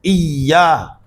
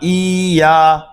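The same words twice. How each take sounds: First: The y sound is held and doubled. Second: The i vowel is drawn out, with a single y. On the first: The speaker calls it right. "il faudrait correctement le marquer" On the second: The speaker calls it wrong. "pas iya"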